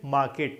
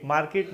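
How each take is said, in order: First: मार्केट as "maa-ket", no R; silent R. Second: मार्केट with the R pronounced, "maar-ket"; sounded R. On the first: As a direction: leave out the R in मार्केट. (मार्केट को "माकेट" बोलें, बिना आर के) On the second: (मार्केट में आर बोलकर, "मारकेट") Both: Shown as a demonstration. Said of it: "मार्केट नहीं".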